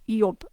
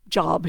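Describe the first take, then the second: First: The word begins with a Y sound. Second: The word begins with a J sound. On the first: The speaker calls it right. "it would be pronounced like an I" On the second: The speaker calls it wrong. "in English job"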